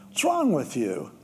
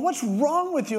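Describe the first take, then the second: First: Said in the usual way. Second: Much higher, incredulous; exasperated dad. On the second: Retold or imitated. Dad yelling at his son digging through manure, incredulous. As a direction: throw it at the kid in disbelief.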